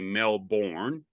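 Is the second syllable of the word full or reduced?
full. The second syllable is said fully and drawn out. The speaker calls it wrong. "Americans, when they go to Melbourne, you know, they say Melbourne"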